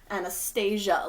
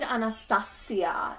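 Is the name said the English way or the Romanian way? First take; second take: English; Romanian. First: The name is said with an English pronunciation. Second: The name is said with a Romanian pronunciation. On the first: The speaker calls it wrong. "her name doesn't sound English or American" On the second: The speaker calls it right. "why are we making it sound exotic? Well, because she is Romanian"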